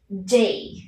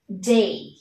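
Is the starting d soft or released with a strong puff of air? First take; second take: strong puff; strong puff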